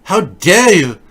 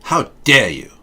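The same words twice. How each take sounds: First: Much higher, louder strangled outrage; hammed-up indignant shriek; mock furious Greta. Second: Greta impression. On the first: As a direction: shriek it like a wronged child. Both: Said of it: "Everything she says is angry".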